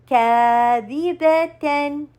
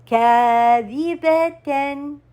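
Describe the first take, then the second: No difference in how they are said.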